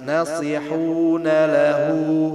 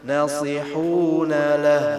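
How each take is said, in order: First: The final vowel is held long and connected. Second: The final vowel is cut off with a stop. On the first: The speaker calls it right. "harusnya ini disambung kan? Ini harusnya manjang" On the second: The speaker calls it wrong. "bukan nasihuna lah"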